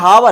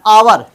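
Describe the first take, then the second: First: The word begins with an h sound. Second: The word begins with a vowel sound. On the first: The speaker calls it wrong. "पढ़ सकते हैं हावर, लेकिन हावर नहीं होता है" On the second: The speaker calls it right. "ये आवर होता है"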